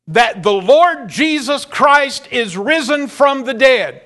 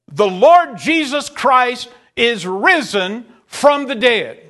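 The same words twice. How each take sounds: First: Said in the usual way. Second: "The Lord Jesus Christ is risen from the dead" slowed, each word weighed; slow emphatic repeat. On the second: Shown as a demonstration. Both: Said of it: "repeats the statement".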